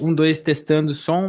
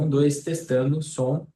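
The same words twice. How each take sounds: First: The voice sounds louder and clearer. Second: The voice sounds quiet and low in volume. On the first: The speaker calls it right. "inverter ele. ... melhor?" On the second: The speaker calls it wrong. "o áudio está baixo para mim"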